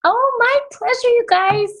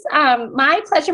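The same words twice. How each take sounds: First: Bright, high greeting; excited. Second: Said in the usual way. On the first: Real, not acted. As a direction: gush it out warmly with a big pitch lift. Enthusiastic greeting on arrival.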